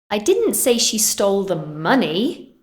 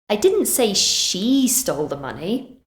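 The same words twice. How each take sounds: First: The word 'money' carries the main stress. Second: The word 'she' carries the main stress. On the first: She took something else. "I said she stole something else" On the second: Someone else did it. "Maybe I said someone else did"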